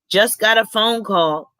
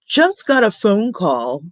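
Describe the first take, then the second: First: It is read in the speaker's own voice. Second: It is said in an imitated, put-on voice.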